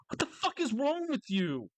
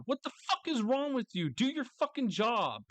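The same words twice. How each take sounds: First: High, incredulous outburst; what the fuck, pitched way up; exasperated at God. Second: High, incredulous demand; exasperated again. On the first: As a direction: demand it of God, fed up. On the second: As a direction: hit fuck hard. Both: Pretend. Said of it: "I would say that to God".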